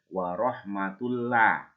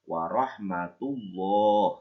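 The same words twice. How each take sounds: First: The l in Allah is thin and light. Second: The l in Allah is thick and heavy. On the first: The speaker calls it wrong. "Nggak boleh dibaca" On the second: The speaker calls it right. "Kedua bibir kita maju ke depan"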